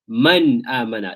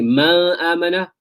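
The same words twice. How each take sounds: First: The n sound is pronounced clearly and short. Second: The n sound is blurred or nasalized. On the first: The speaker calls it right. "The noon is very clear" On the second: The speaker calls it wrong. "Both are incorrect"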